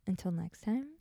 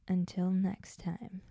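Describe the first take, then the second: First: It is said in a friendly way. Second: It is said in a scary way.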